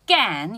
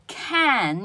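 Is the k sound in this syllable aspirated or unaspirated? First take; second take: unaspirated; aspirated. First: The k has no puff of air. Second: The k is said with a puff of air. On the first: The speaker calls it right. "念成can" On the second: The speaker calls it wrong. "要把这个can 念成can"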